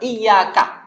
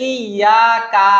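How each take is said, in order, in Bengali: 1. শেষের ka অক্ষরটি ছোট রাখা হয়। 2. শেষের ka অক্ষরটি টেনে লম্বা করা হয়।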